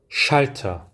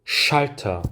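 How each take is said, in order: No difference in how they are said.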